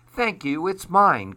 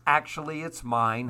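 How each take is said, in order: First: High, lightly voiced duck; quick claim in a raised duck voice; quacking duck. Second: Lightly voiced goose, dropping back down; understated goose putting in a correction; honking goose. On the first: Duck answers the bluebird's praise, lightly quacking. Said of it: "quacked Duck". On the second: Goose corrects Duck's claim to the egg, lightly honking. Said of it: "honked Goose". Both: A narrator's reading.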